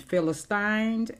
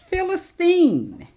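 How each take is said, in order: First: The word is said the American English way. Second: The word is said the Arabic way. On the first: "Philistine is the American English pronunciation" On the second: "Philistine is the Arabic pronunciation"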